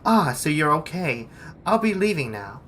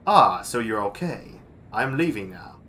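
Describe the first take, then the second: First: It is said in a woman's voice. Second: It is said in a manly voice.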